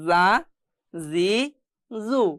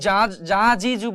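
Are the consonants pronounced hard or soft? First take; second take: soft; hard. First: The consonants are pronounced softly. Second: The consonants are pronounced hard. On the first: The speaker calls it right. "নরম করে পড়তে হবে" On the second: The speaker calls it wrong. "আমি কিন্তু এখানে যা যা জি জু বলিনি"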